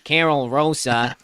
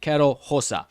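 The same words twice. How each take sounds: First: It is said in a nasal Chicago American accent. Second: It is said in a Brazilian Portuguese accent. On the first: The speaker calls it wrong. "if you're a nice nasally Chicagoan" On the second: The speaker calls it right. "But it's"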